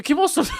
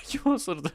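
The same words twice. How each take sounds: First: High, loud joking yell of 'Kim osurdu'; playful call-out; mock outraged shout. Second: 'Kim osurdu' giggled high and soft; giggling repeat; laughing. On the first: Gas cloud joke, shouted. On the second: Real, not acted. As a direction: say 'Kim osurdu' while cracking up.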